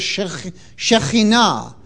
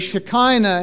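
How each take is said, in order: First: The word has a Hebrew pronunciation. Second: The word has an Anglicized English pronunciation. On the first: The speaker calls it right. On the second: The speaker calls it wrong.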